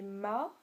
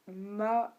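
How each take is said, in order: First: "ma" drawn out, dipping then rising; tone of "ma", horse. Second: "ma" held on a fairly level tone; interrogative "ma". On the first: Showing learners the word for horse, "ma" with a dipping tone. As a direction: let "ma" sink and climb back up. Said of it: "c'est pas la même chose". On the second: Showing learners the question word, "ma" on an even tone. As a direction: say "ma" slow and even, without a dip. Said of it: "le premier, euh, c'est le mot interrogatif". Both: Shown as a demonstration.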